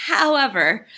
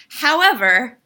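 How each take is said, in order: First: However, said again a bit softer and level; softer repeat. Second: However, said loud with a rising tune. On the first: Critic repeats However more calmly to press on. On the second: Critic interrupts herself with a loud rising However. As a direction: punch However, then catch yourself. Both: Shown as a demonstration.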